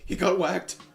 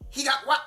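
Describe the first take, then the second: First: It is said in a whimpering fat-guy voice. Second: It is said in a steady fat-guy voice.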